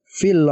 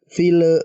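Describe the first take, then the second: First: The final l is said cleanly without hum. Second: The final l is said with a bounce. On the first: The speaker calls it right. "tapi dibaca jelas fil uqad" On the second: The speaker calls it wrong. "jangan dipantulkan teman-teman. Contohnya fil fil bukan"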